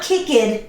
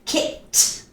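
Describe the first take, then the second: First: The ending is a separate 'ed' syllable. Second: The ending is a short 't' sound. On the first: The speaker calls it wrong. "It's not kicked, no" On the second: The speaker calls it right. "K I C K T"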